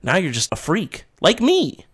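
It is said in a terrifying, dramatic voice.

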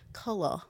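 The word is said in a British accent.

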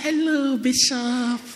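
The greeting sounds warm and smiling. The person still feels loyal and friendly.

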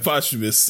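It is said confidently, falling.

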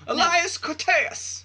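The name is declaimed dramatically, like casting a spell.

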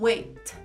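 The final T is fully released. "no inglês britânico se diz wait. Continua fazendo esse som"

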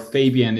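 The name is pronounced in an English way.

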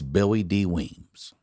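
The name is said in a Baltimore accent.

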